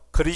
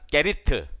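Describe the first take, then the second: First: It is said as the short form 'grit'. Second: It is said as the longer form 'gerit'. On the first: "영어식 발음이 아니에요" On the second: "성경이 기록된 대로 발음하면 게리트"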